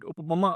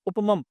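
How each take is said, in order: First: The word ends with an extra vowel after m. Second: The word ends on a bare m sound. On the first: The speaker calls it wrong. "You can't say that. Would be wrong" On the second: The speaker calls it right. "you have to say amrtah or amrita upamam"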